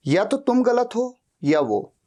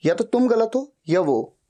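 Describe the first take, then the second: No difference in how they are said.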